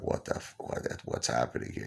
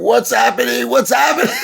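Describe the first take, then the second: First: Breathy, scared whisper; panicked whisper. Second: High, loud panicked scream. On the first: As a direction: hush it, frightened and confused. Freaking out on the stretcher. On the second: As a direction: scream it in terror on the stretcher. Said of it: "like, screaming". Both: Retold or imitated.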